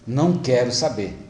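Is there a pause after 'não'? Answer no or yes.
no. It is said with no pause after não. The person refuses to hear anything. "ela fala assim"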